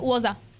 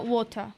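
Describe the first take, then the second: First: It is said in a Scottish accent. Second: It is said in a British accent. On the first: "o escocês é" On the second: "o britânico é"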